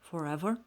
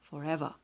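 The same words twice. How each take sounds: First: The final 'er' sound is pronounced. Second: The final 'er' sound is dropped.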